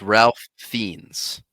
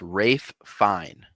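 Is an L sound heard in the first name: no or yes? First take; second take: yes; no. First: The first name is said with an L sound. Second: The first name is said without any L sound. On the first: The speaker calls it wrong. "I thought it was Ralph Fiennes" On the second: The speaker calls it right. "Apparently, it's Rafe Fine"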